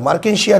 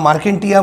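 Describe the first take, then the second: First: It is said with a k and an sh. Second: It is said with a k and a t. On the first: The speaker calls it right. "मार्केन्शिया त्याचं नाव" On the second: The speaker calls it wrong. "याला मार्केंटिया म्हणू नका"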